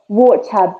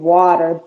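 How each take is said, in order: First: It is said in a British accent. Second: It is said in an American accent. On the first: "When it comes to British, it's like" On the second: "But when it comes to American"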